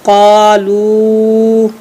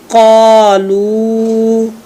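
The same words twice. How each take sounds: First: कालू with the लू held very long; elongated madd. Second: कालू with its long vowel stretched out slowly; elongated madd. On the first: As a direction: draw out the madd on कालू slowly. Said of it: "लाम पेश वा मदलू". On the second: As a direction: hold the लू of कालू like a teacher modelling. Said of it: "जी". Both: Shown as a demonstration.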